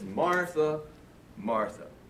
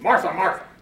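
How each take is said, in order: First: It is said in a tender, emotional tone. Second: It is said in a harsh, mean tone.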